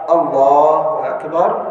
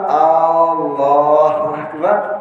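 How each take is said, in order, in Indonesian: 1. Huruf vokal pertama pada Allahu itu pendek. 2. Huruf vokal pertama pada Allahu dibaca panjang. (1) "Allah Maha Besar" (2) "apakah Allah itu Maha Besar?"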